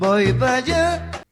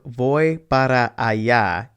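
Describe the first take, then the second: First: The word para is shortened to pa. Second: The word para is said with both syllables. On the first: "you may just hear" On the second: "instead of"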